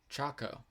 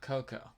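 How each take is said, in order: First: The word begins with a ch sound. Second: The word begins with a k sound. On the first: The speaker calls it right. "Is that how it is?" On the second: The speaker calls it wrong. "I was saying Coco wrong"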